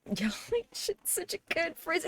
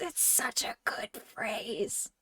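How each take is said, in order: First: High, slow and soft, like a tiny cartoon voice; squeaky high voice. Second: Slow, soft breathy whisper. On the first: Streamer repeats the phrase to chat in a squeaky high voice. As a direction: squeak it out slowly, much higher. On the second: Pretend. Streamer whispers the phrase again to chat. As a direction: whisper it slowly like a secret.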